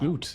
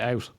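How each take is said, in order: First: The vowel is a long 'oo' sound. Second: The vowel is an 'ow' sound. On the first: It sounds Canadian. "Like you say oot" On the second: It sounds standard American. "You don't say out"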